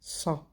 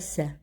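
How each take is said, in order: First: The S is emphatic and heavy. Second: The S is plain and light. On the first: The speaker calls it right. "c'est un S emphatique" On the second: The speaker calls it wrong. "pas ça"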